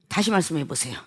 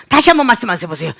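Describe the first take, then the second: First: Low, very soft request to repeat; calm request. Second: Quick, irritated demand to repeat; mock angry demand. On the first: Acted. Customer asking to hear it once more, soft and calm. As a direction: ask gently and quietly, well down in pitch. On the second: Customer demanding a repeat from the clerk, acted irritation. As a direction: demand it fast, with put-on annoyance. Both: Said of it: "이거 화가 나는 거죠?".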